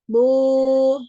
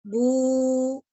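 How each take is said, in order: First: The vowel is made with lips opened too wide. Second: The vowel is made with small, tightly rounded lips. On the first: The speaker calls it wrong. "terbukanya terlalu besar" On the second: The speaker calls it right. "mengangkat bagian pangkal lidah"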